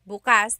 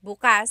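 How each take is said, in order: First: The stress is on the second syllable. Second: The stress is on the second syllable.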